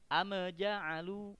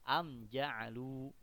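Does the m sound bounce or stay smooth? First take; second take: bounce; smooth. First: The m sound bounces with an echoing release. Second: The m sound is clear without any bounce. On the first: The speaker calls it wrong. "kesalahannya mantul" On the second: The speaker calls it right. "Yang benar adalah"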